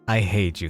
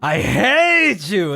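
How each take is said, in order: First: It is said flatly, without much feeling. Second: It is said with a lot of feeling.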